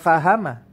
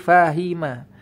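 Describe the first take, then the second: First: The middle vowel is an a sound. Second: The middle vowel is an i sound. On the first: The speaker calls it wrong. "bukan fahama" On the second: The speaker calls it right. "tapi fahima"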